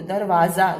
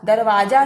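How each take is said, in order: First: दरवाजा with a clear z, darwaza; दरवाजा ending on a buzzing za; z sound. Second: Said in the usual way. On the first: Shown as a demonstration. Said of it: "Z sound सुनाई देता है". (दरवाज़ा में ज़ साफ़) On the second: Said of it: "दरवाजा नहीं बोलते".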